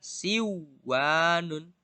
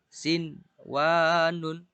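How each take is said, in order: First: The n sound merges into the w. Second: The n sound is pronounced clearly before w. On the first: The speaker calls it wrong. "tidak boleh dibaca siwanun" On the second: The speaker calls it right. "tapi harus dibaca jelas sin wanun"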